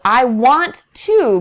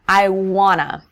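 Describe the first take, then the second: First: Each word is said fully and separately. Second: The words blend together into 'wanna'. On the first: "if I'm speaking very clearly and enunciating each word" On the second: "we don't actually say to. It completely changes"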